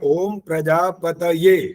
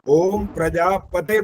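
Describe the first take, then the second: First: The last word ends in a 'taye' sound. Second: The last word ends in a single 'te' sound. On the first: The speaker calls it right. "ये यह है" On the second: The speaker calls it wrong. "बहुत सारे लोग इसको ऐसे ही बोलते हैं, ... वो गलत है बिल्कुल"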